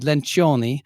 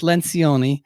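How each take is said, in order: First: The name is said with Italian pronunciation. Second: The name is said with English pronunciation. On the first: This is how it would be said in the original language. "if you pronounced it in Italian, it would be Lencioni" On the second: This is how the name is actually said. "but it's Lencioni"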